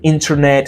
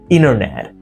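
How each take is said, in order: First: The T after N is pronounced. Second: The T after N is dropped. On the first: "It's not" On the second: "drop T happens when a T is coming after an N sound"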